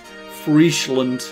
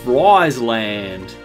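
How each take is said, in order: First: It is pronounced the Dutch way. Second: It is pronounced the English way. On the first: The speaker calls it right. "at least I know" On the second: The speaker calls it wrong. "instead of Friesland"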